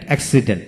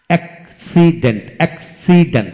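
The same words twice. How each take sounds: First: Said in the usual way. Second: accident split into three separate beats; syllable by syllable. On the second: Shown as a demonstration. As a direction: pause between each syllable of accident. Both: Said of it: "যে ওয়ার্ডে তিনটি syllable থাকে".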